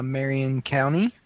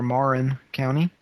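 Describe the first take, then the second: First: "Marion" said like the name Marian; first pronunciation attempt. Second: "Marin" in two syllables, questioning rise after; alternative pronunciation attempt. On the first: Host unsure of listener's county, first try at "Marion". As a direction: say "Marion" with stress on the first syllable. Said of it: "or Marin County". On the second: Host correcting the county name, unsure try at "Marin". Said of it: "Mar-, Marin?". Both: Real, not acted.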